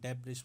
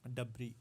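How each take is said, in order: First: The word ends with a sounded s. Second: The word ends without any s sound. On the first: The speaker calls it wrong. "कुछ लोग डेब्रिस बोलते हैं" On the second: The speaker calls it right. "ये डबरी होता है"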